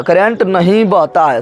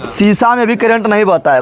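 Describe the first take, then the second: First: Drawn-out "current नहीं बहता है"; slow emphatic repeat. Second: Said in the usual way. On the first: Shown as a demonstration. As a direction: drive the point home slowly. Teacher repeats slowly for emphasis. (धीरे, ज़ोर देकर दोहराते हुए)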